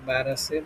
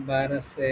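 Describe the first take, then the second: No difference in how they are said.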